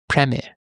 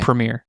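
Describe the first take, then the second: First: It is said in an English accent. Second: It is said in an American accent.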